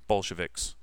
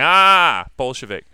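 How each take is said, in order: First: Said in the usual way. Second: Imitating Tyler's snickering Ah before Bolshevik; imitating student. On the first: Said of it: "The word Menshevik". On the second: Teacher mimicking a student who snickered at Bolshevik. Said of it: "can you hear his voice?".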